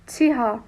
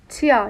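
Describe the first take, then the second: First: Said slowly with a clear h sound. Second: Said faster with the h sound dropped.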